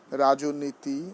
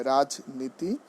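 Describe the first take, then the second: First: রাজনীতি slowly as rajo-niti, extra o after j; mistaken pronunciation. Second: রাজনীতি as raj-niti, no linking o; correct pronunciation. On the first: Teacher slipping before correcting the word, mistaken pronunciation. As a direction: draw out রাজনীতি with an added middle o. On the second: Teacher correcting to the right form, correct pronunciation. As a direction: say রাজনীতি with j straight into n. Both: Shown as a demonstration. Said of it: "মানে কি হবে".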